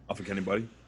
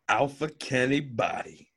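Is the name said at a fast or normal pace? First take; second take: fast; normal. First: The name is said quickly, run together. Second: The name is said at a normal pace.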